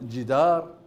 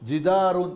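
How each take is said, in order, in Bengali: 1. শব্দটি শুধু ব্যঞ্জনে শেষ হয়। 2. শব্দটি অতিরিক্ত -un দিয়ে শেষ হয়।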